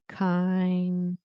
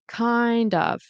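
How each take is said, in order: First: The second word shrinks to a weak vowel. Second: Both words are said in full and linked. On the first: "like kinda with an A" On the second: "It's like the D goes over"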